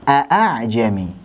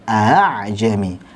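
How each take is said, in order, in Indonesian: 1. Hamzah kedua adalah hentian glotal yang jelas dan penuh. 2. Hamzah kedua ringan, di antara hentian dan vokal. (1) "Kalau hamzah-hamzah muhaqqaqah" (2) "ketika dibaca tashil sangat mudah, seperti kita seret saja"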